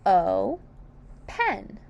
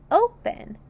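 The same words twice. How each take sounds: First: "O, pen" in two beats with a clear gap; "O, pen" broken syllable by syllable; split into syllables. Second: Said in the usual way. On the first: Shown as a demonstration. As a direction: say "O", pause, then "pen". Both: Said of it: "Open has two syllables".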